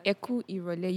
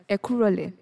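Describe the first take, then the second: First: Said in the usual way. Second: "ẹ kú rọ̀lẹ́" with the initial ì of ìrọ̀lẹ́ dropped; contracted greeting. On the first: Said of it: "instead of hearing it as". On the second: Shown as a demonstration. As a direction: say "ẹ kú rọ̀lẹ́" without the ì before rọ̀lẹ́. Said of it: "you hear it as".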